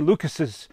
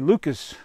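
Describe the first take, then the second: First: The name ends with an added extra syllable. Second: The name ends without any added syllable. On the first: The speaker calls it wrong. "you don't say Lucas's" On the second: The speaker calls it right. "you say Lucas"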